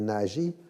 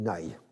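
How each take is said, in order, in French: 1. Le nom se prononce à la française. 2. Le nom se prononce à la hongroise. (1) "en français on dit" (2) "en hongrois on dit"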